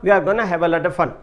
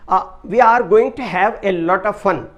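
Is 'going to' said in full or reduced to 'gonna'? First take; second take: reduced; full. First: 'Going to' is reduced and run together as 'gonna'. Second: 'Going to' is said in full, two words.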